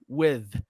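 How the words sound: The word ends with a th sound. The speaker calls it right. "But we have the T H sound with"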